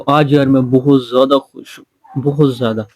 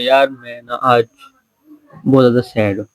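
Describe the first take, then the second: First: It is said in a high, happy pitch. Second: It is said in a low, serious pitch.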